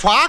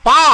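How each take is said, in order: First: The consonant is said with a breathy puff. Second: The consonant is said without a breathy puff. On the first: The speaker calls it wrong. "ఫా కాదురా" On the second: The speaker calls it right.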